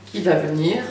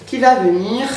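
First: Low, straining at a stuck lid; strained, low, fighting the cap; opening a stuck jar. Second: Said in the usual way. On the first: Real, not acted. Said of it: "j'arrive pas à l'ouvrir".

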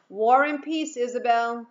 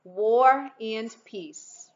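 First: Loud playful call of War and peace, Isabel. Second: War and peace stretched out very slowly, loud and teasing; slow teasing repeat. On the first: Dad calling to his daughter down the block, loud and teasing. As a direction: sing it out loud across the street. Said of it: "he called out". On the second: Dad repeating the joke to his daughter, slow and loud. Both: A narrator's reading.

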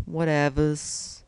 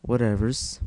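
First: Higher, drawn-out "Whatevers"; playful put-on repeat. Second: Said in the usual way. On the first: Gamer shrugging off his accent slip, playful high drawl.

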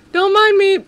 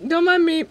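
First: Loud teasing don't mind me; loud mock innocence. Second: Said in the usual way. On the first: Mock-innocent game banter.

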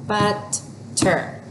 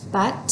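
First: Said in the usual way. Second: But-ter said in two parts, a small gap after But; split into syllables. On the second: Shown as a demonstration. Teacher models reading by syllables, broken in two. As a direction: tap out But, then ter. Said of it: "We read the first part".

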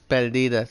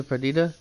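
First: "Perdida" said the Spanish way; Spanish pronunciation. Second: Said in the usual way. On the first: Shown as a demonstration. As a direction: say "Perdida" with Spanish vowels, firmly. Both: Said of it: "it'll be the Spanish pronunciation".

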